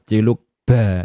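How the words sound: It is said with a Javanese accent. "pasti ba ya"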